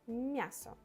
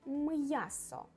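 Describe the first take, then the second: First: A soft m, flowing straight into the ya. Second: A hard m, briefly separated from the ya. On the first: The speaker calls it wrong. "Without soft sign it will be мясо, мясо, and that's not correct" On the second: The speaker calls it right. "we will pronounce it hard... little little pause between two letters"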